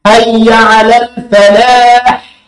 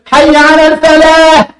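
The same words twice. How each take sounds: First: الفلاح ending on a strong ح; chant, pressing the final ح; slow chant with a clear ح; clear pharyngeal ha. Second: Mock a singer's sloppy الفلاح; wrong final ha. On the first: Shown as a demonstration. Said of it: "لازم أنطق الحق".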